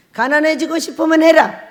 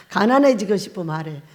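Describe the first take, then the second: First: Stern divine pronouncement, louder; a lightly voiced stern God; voice of God quoted. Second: Said in the usual way. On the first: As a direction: deliver it as God's stern verdict. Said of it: "딱 이러는 거예요".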